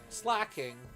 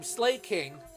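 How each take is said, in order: First: The first syllable sounds like 'slack'. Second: The first syllable sounds like 'slay'. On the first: "not Slacking" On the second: "I always thought his name was Slaking"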